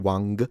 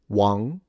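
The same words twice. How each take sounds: First: The word ends with an audible hard G. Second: The word ends in a nasal with no G. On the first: The speaker calls it wrong. "You don't say Wang" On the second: The speaker calls it right. "So the G is fully nasalized. You don't pronounce the G"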